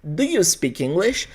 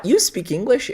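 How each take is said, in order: First: Slow, soft "Do you speak English?" rising gently; right way shown: teacher models the correct question; proper question form. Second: "You speak English?" with the pitch rising at the end; wrong way shown: question by intonation alone; rising question tune. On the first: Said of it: "Eu vou precisar colocar na frente da frase o do". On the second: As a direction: ask "You speak English?" only by lifting the last word. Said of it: "Eu não vou só mexer na minha entonação". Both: Shown as a demonstration.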